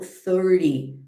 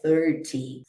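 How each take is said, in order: First: The t is softened, almost like a quick d. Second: The t is pronounced clearly and fully. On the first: "eu falo thirty" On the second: "Lembrando que você sempre pode falar também T"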